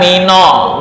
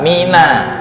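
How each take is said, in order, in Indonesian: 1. Vokalnya berat dan gelap, seperti o. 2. Vokalnya tipis dan ringan, seperti a. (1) "bukan mino. Mino tuh nggak ada" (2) "Tarkik kayak minallahi"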